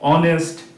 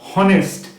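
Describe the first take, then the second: First: The word starts with a vowel, no h. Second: The word starts with an audible h sound. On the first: The speaker calls it right. "এগুলো কিন্তু সব অ দিয়ে উচ্চারণ হচ্ছে" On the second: The speaker calls it wrong. "এরকম কিন্তু আমরা বলছি না"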